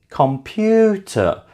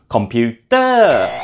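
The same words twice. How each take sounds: First: The stress is on the second syllable. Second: The stress is not on the second syllable. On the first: The speaker calls it right. "is stressed on the second syllable" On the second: The speaker calls it wrong. "is not actually correct pronunciation for a foreigner"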